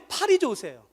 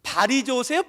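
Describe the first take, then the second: First: 팔이 with a strong aspirated p, like "phari"; pal with aspirated p. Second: 발이 with a soft unaspirated b, like "bari"; bal with soft b. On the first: A pastor testing the congregation, saying 팔이 with an aspirated p. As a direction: push a puff of air on the p of 팔이. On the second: A pastor testing the congregation, saying 발이 with a soft b. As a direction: say 발이 gently, no puff of air on the b. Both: Shown as a demonstration.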